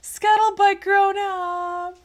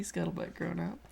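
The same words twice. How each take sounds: First: Very high, loud, slow call; excited exclamation. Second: Said in the usual way. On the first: Retold or imitated. Streamer crying out a viewer's suggestion, excited exclamation.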